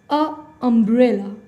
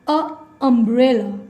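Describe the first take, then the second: The two takes are said the same way.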